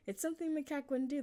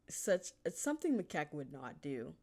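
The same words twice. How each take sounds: First: Emphatic restatement. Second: Said in the usual way. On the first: Real, not acted.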